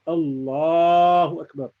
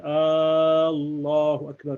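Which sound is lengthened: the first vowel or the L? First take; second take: L sound; first vowel. First: The L sound in Allah is drawn out long. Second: The opening vowel of Allah is drawn out long. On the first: It declares that Allah is the greatest. The speaker calls it right. "you can make the lam of Allah longer" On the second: It asks whether Allah is the greatest. The speaker calls it wrong. "don't ever stretch the hamza"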